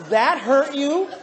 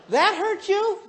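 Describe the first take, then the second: First: Loud, drawn-out disbelieving question; incredulous. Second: High-pitched, squeaky-high incredulous question; astonished. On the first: Husband questioning wife's complaint, loudly incredulous. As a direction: stretch each word in loud disbelief. Incredulous retort in retold argument. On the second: Husband repeating the question to wife, high and incredulous. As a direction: pitch it way up in disbelief. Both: Retold or imitated.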